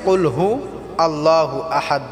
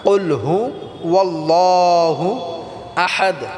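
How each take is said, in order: First: 'Hu' and 'Allahu' are said with no w sound. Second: 'Hu' and 'Allahu' are joined by a w sound. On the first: The speaker calls it wrong. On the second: The speaker calls it right.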